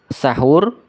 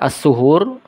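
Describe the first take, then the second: First: The first vowel is an 'a' sound. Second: The first vowel is a 'u' sound. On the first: It means the food eaten at the pre-dawn meal. "bil fathi, bi fathis sin" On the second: It means the act of eating the pre-dawn meal. "yaitu bi dhammis sin"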